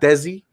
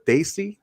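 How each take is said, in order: First: The name sounds like 'Desi', with a 'deh' vowel. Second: The name sounds like 'Daisy', with a 'day' vowel. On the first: The speaker calls it wrong. "not Desi" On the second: The speaker calls it right. "correcting the pronunciation of the word Daisy"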